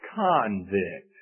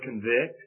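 First: The stress is on the first syllable. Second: The stress is on the second syllable. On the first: A person found guilty. "that same word, but a different emphasis" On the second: To show someone they are guilty. "the word convict"

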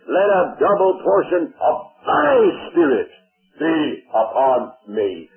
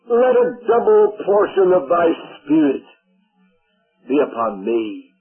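First: It is read with strong, deliberate emphasis. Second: It is read plainly, without strong emphasis.

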